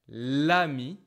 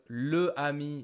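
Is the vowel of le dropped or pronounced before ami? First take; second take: dropped; pronounced. First: The vowel of le is dropped: lami. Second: Both vowels are pronounced, le then ami. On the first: The speaker calls it right. "we just transform it into this generic L apostrophe" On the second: The speaker calls it wrong. "sounds a bit strange"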